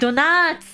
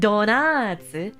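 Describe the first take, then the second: First: The word ends without a final u vowel. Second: The word ends with a final u vowel. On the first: The speaker calls it right. "it wouldn't actually use the U" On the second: The speaker calls it wrong.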